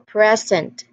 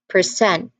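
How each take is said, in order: First: The stress is on the first syllable. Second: The stress is on the second syllable. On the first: It is a noun meaning a gift. "It means as a gift or something given" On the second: It is a verb meaning to show or give. "the stress shifts to the second syllable"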